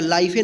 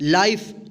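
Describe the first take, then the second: First: It ends with an added vowel after f. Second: It ends on the consonant f. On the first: The speaker calls it wrong. "या लाइफे नहीं पढ़ेंगे" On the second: The speaker calls it right. "क्या पढ़ेंगे, लाइफ"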